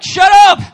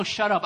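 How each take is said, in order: First: Sudden high, very loud shout; yell. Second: Mild mock yell, slightly raised; retold yell. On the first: Acted. Walking into a funeral full of mourners, mock furious yell. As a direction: bellow it in mock fury. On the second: Preacher retelling a funeral outburst, toned-down yell. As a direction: quote a yell without really shouting. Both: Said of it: "walk into a funeral and yell".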